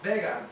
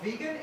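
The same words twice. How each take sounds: First: It is pronounced so it sounds like bacon. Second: It has the usual English pronunciation of vegan. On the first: "In Spain, it's vegan. Which sounds a lot like the English word bacon" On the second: "it's not vegan"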